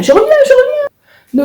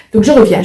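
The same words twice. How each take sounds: First: Sing-song. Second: Said in the usual way. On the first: Real, not acted. Leaving briefly, repeats phrase.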